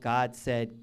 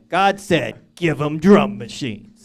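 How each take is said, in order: First: It is said plainly, without flair. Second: It is said in a cool, stylish way.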